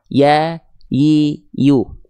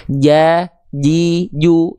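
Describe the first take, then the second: First: "Ya, yi, yu" as open glides, tongue not touching the palate; separate, smooth y syllables "Ya, yi, yu"; letter ya. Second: "Ja, ji, ju" with the tongue touching the palate for a hard j; separate, firm j syllables "Ja, ji, ju"; letter jim. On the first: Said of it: "Kalau huruf ya begini". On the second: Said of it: "Itu huruf jim". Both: Shown as a demonstration.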